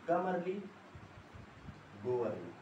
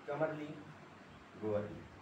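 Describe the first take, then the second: First: There is a long pause between the phrases. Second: There is a shorter pause between the phrases. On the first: The two parts are separate sentences. "Full stop से और ज्यादा देर तक pause ले रहा हूं" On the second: The two parts are closely linked clauses. "Semi colon में जो middle वाला मैं पॉज ले रहा हूं, मतलब कम दूरी, कम समय तक पॉज"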